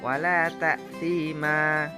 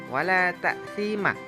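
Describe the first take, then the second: First: The final vowel is held long. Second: The final vowel is cut short. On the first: The speaker calls it right. "dibaca panjang" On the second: The speaker calls it wrong. "tidak boleh dibaca wala ta'thima karena itu panjangnya satu harokat"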